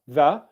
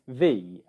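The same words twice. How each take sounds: First: It has a weak, reduced schwa vowel. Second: It has a full, strong ee vowel. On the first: "which is plus schwa sound" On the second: "the strong form of the word the is the"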